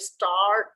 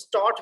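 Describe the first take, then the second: First: The R sound is pronounced after the vowel. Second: The R sound is silent after the vowel. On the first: The speaker calls it wrong. "स्टार्ट नहीं बोलेंगे" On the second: The speaker calls it right. "आर यहां से हम silent कर देंगे"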